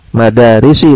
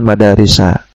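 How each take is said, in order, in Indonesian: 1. Kata ini diakhiri dengan vokal i. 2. Kata ini diakhiri dengan vokal a. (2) "bukan madarisa"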